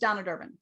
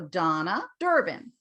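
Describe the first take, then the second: First: The two names run together without a pause. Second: Voice rises on the first name, then pauses. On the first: The speaker calls it wrong. "If I just said my name's Donna Durbin, you don't really hear what I said" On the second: The speaker calls it right. "my voice goes up and then comes down"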